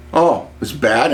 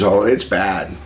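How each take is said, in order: First: "Oh, it's bad?" rising at the end as a question. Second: "Oh, it's bad." falling at the end as an answer; confirming. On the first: Caller asking the saleswoman about the crash, questioning. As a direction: ask "Oh, it's bad?" with a lift on the last word. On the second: Saleswoman answering the caller about the crash, confirming.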